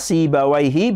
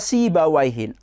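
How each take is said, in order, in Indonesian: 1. Kata ini diakhiri dengan vokal i biasa. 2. Kata ini diakhiri dengan bunyi n tambahan.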